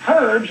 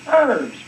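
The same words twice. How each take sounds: First: The word begins with an audible h sound. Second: The word begins with a vowel, h silent. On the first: This is how English speakers say it. "they pronounce it herbs with an H" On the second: This is how Americans usually say it. "the Americans usually pronounce it herbs with an E"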